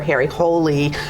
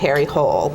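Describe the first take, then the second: First: The surname ends with an extra vowel sound. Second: The surname is said as one syllable. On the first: The speaker calls it right. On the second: The speaker calls it wrong.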